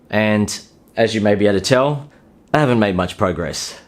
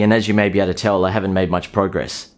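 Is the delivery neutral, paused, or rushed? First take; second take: paused; neutral. First: It is spoken slowly with deliberate pauses. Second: It is spoken at an ordinary, even pace. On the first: The speaker calls it right. "You don't need to pause all the time when talking to a woman" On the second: The speaker calls it wrong. "saying it in a neutral way"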